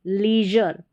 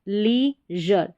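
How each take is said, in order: First: Said in the usual way. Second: लीजर very slowly, "lee", pause, "jur"; syllable by syllable. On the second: Shown as a demonstration. Teacher building लीजर for learners, slow separated syllables. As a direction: say लीजर in two separate parts. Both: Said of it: "इसको ली पढ़ेंगे".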